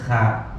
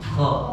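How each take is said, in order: First: The consonant sounds thin and flat. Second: The consonant sounds full, heavy and rounded. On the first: The speaker calls it wrong. "nggak mungkin bacanya kha" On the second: The speaker calls it right. "lebih bulat pengucapannya"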